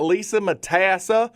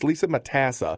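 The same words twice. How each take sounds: First: The name is said in an exaggerated, silly accent. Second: The name is said plainly, in a normal accent. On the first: "I say Matassa really weird" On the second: "without my silly accent"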